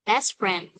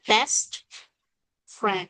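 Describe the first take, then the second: First: "best friend" with no T at the end of "best"; dropped T. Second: "best friend" with the T of "best" sounded; careful citation form of "best friend"; full careful T. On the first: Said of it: "Nó chỉ là best mà thôi". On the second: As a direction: separate "best" and "friend", finishing the T. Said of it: "nếu mà đọc đúng thì phải là". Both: Shown as a demonstration.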